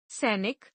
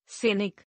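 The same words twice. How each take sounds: First: Said in the usual way. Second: सैनिक with narrow e, "senik"; mispronounced. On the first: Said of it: "शुद्ध". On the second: Shown as a demonstration. Teacher showing an e error, mispronounced with narrow e. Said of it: "अशुद्ध".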